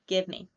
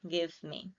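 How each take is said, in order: First: The two words are reduced and blended together. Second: Both words are pronounced fully and separately.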